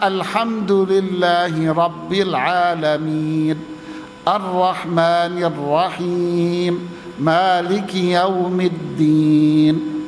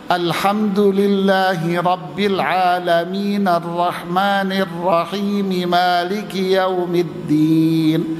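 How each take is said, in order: First: The reciter pauses at the end of each verse. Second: The verses run together without pausing between them. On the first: The speaker calls it right. "Yang lebih afdal yang kedua" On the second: The speaker calls it wrong.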